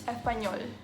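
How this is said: The S sound is barely pronounced. "they barely pronounce the S sound"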